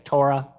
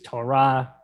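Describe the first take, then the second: First: The word is said the common English way. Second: The word is said the Hebrew way. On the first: "Most people say Torah" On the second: "the Hebrew is Torah"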